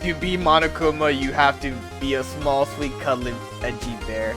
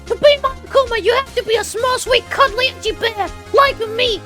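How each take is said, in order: First: It is read in the speaker's normal voice. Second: It is read in a put-on Monokuma voice.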